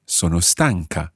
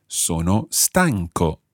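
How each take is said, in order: First: Slow, careful Sono stanca; Italian model phrase. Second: Sono stanco said very slowly, open o at the end; slow, careful Sono stanco; Italian model phrase. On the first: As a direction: model the female form for learners. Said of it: "If you're female". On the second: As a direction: model the male form for learners. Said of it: "I would say". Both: Shown as a demonstration.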